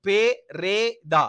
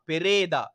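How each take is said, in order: First: பெரேதா broken slowly into pe, re, daa; syllable by syllable. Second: Said in the usual way. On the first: Shown as a demonstration. Teacher showing pupils the pronunciation, பெரேதா slowly syllable by syllable. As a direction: sound out பெரேதா in three separate beats. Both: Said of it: "உச்சரிப்பு".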